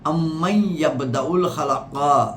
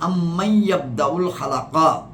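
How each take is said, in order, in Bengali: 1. "amman"-এর n পরের শব্দের সঙ্গে মিশে যায়। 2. "amman"-এর n পরের শব্দের সঙ্গে মিশে যায়।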